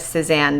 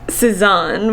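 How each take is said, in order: First: The name is said in an American accent. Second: The name is said in a French accent. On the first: "I've said Cezanne this entire time" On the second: "like Cezanne with a French accent"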